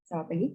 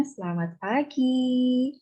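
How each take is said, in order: First: Selamat pagi said low with pagi rising a little; a softer, lower greeting ending up on pagi; quiet greeting. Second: Slow, drawn-out Selamat pagi with pagi rising; rising greeting. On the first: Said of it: "Beda ya, Bu". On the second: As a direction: greet with a long, lifting pagi. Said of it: "intonasi atau laku suara". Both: Shown as a demonstration.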